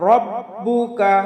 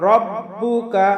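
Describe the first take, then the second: No difference in how they are said.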